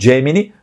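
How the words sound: It is said with a Brazilian Portuguese pronunciation. "aqui vamos colocar no Brasil Gemini"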